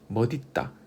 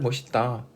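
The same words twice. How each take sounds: First: The middle consonant is a d sound. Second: The middle consonant is an s sound. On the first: It follows the syllable-final sound rule. "시옷은 디귿으로 끝소리 규칙에 의해서 바뀌고 어, 연음이 되면" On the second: It is the common everyday pronunciation. "주로 많이 하죠"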